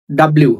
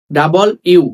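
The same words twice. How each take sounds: First: "ডাব্লিউ" squeezed, with b and l joined; wrong run-together W. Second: "ডাবল ইউ" as two words, double then you; correct separated W. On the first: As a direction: say "ডাব্লিউ" dropping the vowel between b and l. (জুড়ে দিয়ে ভুল "ডাব্লিউ") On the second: (আলাদা করে "ডাবল ইউ") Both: Shown as a demonstration.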